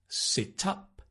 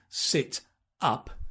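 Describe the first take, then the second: First: The final consonant links into the vowel. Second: The two words are said separately. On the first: "So you can link" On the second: "Instead of"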